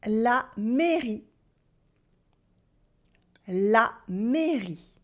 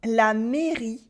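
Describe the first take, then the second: First: "La mairie" said slowly, stretching the é; slow teacher demo of "La mairie"; slow clear demo. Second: Said in the usual way. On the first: Shown as a demonstration. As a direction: draw the word out for learners. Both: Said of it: "find out if I pronounce the sound E".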